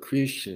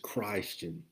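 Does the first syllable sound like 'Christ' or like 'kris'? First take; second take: kris; Christ. First: The first syllable sounds like 'kris'. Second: The first syllable sounds like 'Christ'. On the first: The speaker calls it wrong. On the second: The speaker calls it right. "because we're not followers of Christ, as we would pronounce it. We're followers of Christ"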